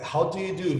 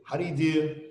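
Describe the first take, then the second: First: "How do you do" with each word sounded; careful, unreduced "How do you do"; full form. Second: "How do you do" slurred as "ha-d-iu-du"; reduced, run-together "How do you do"; contracted form. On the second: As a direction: squash the first words of "How do you do". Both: Shown as a demonstration.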